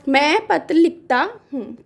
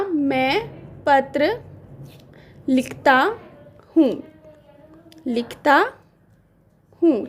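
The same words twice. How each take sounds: First: Said in the usual way. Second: Very slow, with long pauses between words; slow dictation. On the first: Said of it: "हम लिख लेते हैं". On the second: Shown as a demonstration. Teacher dictating the sentence to students, slowly. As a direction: dictate it word by word. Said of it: "तो मैंने वाक्य लिया".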